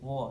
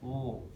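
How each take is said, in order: First: The sound flows out freely, not held. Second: The sound is held back in the mouth. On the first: The speaker calls it right. "jadi suaranya tidak ditahan" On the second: The speaker calls it wrong. "tidak wo"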